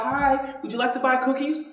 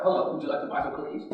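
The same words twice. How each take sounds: First: Put-on a lightly raised, sweet Girl Scout pitch; cheerful Girl Scout. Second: Quick, low, breathless mumble of the sales line; bored Girl Scout. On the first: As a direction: offer the cookies politely, a bit higher. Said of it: "You see the girls going down the block". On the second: Retold or imitated. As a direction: rattle off the cookie pitch without caring. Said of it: "they don't even talk like that now".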